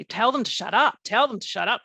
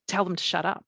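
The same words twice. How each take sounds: First: Retold loud, urgent plea; louder, higher, insisting they be silenced. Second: Said in the usual way. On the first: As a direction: raise your voice, reliving the freak-out. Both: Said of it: "I was saying it really loudly".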